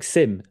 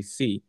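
First: "sim" with the final m sounded; as spelt. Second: "C" said like "see", with no m at the end; silent M. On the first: Learner showing the spelling, "sim" read with a full m. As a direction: say "sim" as written, closing on an m. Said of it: "is how you spell". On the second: Learner showing the spoken Portuguese word, "C" without any m. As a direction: say "C" as an open "see", dropping the m. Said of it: "but you don't pronounce the M". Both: Shown as a demonstration.

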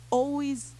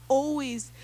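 No difference in how they are said.

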